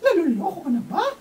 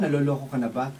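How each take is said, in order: First: It is said in a put-on character voice. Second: It is said in the speaker's ordinary voice. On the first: "ibahin ko yung boses ko" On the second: "normal voice"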